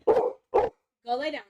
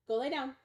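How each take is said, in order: First: Loud, slow, drawn-out order to the dog; firm loud command. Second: Said in the usual way. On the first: Real, not acted. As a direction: stretch it out and lay down the law. Dog ignores the first command.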